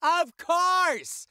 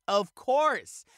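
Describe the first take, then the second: First: High, loud, drawn-out outburst; emphatic exclamation. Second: Said in the usual way. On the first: Pretend. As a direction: blow it up big and high.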